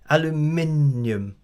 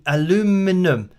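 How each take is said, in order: First: It is said the British way, five syllables. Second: It is said the American way, four syllables.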